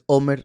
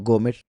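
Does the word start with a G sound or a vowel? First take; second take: vowel; G sound. First: The word starts with a vowel sound. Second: The word starts with a G sound. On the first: The speaker calls it right. "en realidad se pronuncia Omer" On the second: The speaker calls it wrong. "no Gomer"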